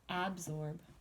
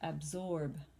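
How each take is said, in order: First: The stress is on the first syllable. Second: The stress is on the second syllable. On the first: The speaker calls it wrong. "Does it get the beginning?" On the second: The speaker calls it right. "It's the second"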